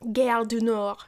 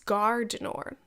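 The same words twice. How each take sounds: First: It is said with an English-style pronunciation. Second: It is said with a French-style pronunciation. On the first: This is how the speaker normally says it. The speaker calls it wrong. "I usually would pronounce it like that" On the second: This is how the speaker thinks it should be said. The speaker calls it right. "but I think it's"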